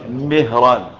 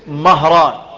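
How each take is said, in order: First: The first vowel is a close 'i' sound. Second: The first vowel is an open 'a' sound. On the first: It names the Prophet's freed servant. "بكسر الميم اسمه ايه؟" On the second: It names other men found in history books. "باسم مهران بفتح الميم"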